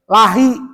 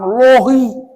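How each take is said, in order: First: The L is light, followed by an 'a' vowel. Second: The L is heavy, followed by an 'o' vowel. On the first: The speaker calls it right. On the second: The speaker calls it wrong. "bukan lohi"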